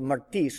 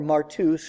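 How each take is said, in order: First: The second vowel sounds like 'ee'. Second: The second vowel sounds like 'oo'. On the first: This is the modern Greek pronunciation. "in modern Greek, the upsilon is pronounced as though it were an eta" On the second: This is the academic seminary pronunciation. "if you want to use the seminary way"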